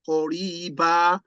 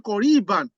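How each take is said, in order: First: The word ends on a long vowel, no n. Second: The word ends with an added n sound. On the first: The reader stops after this word. "I said, Qoriba" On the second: The reader continues without stopping. "I didn't say Qoriban because I want to stop"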